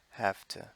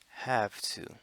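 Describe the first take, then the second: First: The words blur into one reduced word. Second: Both words are said fully and clearly.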